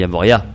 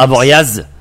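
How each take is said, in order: First: The name ends with a vowel sound. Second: The name ends with a z sound. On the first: The speaker calls it right. "on dit Avoria" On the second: The speaker calls it wrong. "On ne dit pas Avoriaz"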